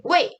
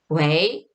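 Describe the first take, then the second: First: 웨이 short, dropping sharply from high. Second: 웨이 rising from low like a question; phone hello. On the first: Speaking to the caller rudely, sharp falling tone. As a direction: say 웨이 as a curt "hey". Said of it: "불쾌할 수도 있을 것 같아요". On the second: Answering the phone, rising questioning tone. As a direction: lift 웨이 gently at the end. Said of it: "전화 받을 때 웨이". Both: Shown as a demonstration.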